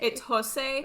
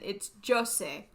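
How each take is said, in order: First: The name is said with a Spanish accent. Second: The name is said with a Portuguese accent. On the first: "if you're saying it with a Spanish accent" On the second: "if you say it with a Portuguese accent"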